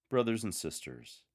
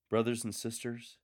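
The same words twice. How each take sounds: First: "Brothers and sisters" settling downward, a falling lilt. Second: "Brothers and sisters" with the pitch lifting, an upward lilt. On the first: Lector demonstrating the opening line, downward lilt. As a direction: let "Brothers and sisters" fall gently. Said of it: "with a downward one". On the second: Lector demonstrating the opening line, upward lilt. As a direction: let "Brothers and sisters" rise warmly. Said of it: "with an upward lilt". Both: Shown as a demonstration.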